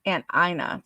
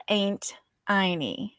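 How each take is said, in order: First: Said in the usual way. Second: "Aunt Inie" with "Aunt" like "ain't" and an ee ending; family pronunciation. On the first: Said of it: "usually turned into E's". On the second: Shown as a demonstration. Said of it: "actually, they called her".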